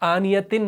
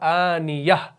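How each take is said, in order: First: The word ends in a full tin ending. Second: The word ends in a soft h sound. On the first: The reading continues without stopping. The speaker calls it wrong. "आनियतिन नहीं पढ़ना है" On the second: The reciter stops on this word. The speaker calls it right. "इसको हाय साकिना में तब्दील करेंगे तो ये बनेगा आनियह"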